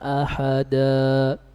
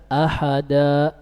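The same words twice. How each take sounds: First: The final vowel fades out with a slow breath. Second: The final vowel is cut off with an abrupt stop. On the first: The speaker calls it right. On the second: The speaker calls it wrong.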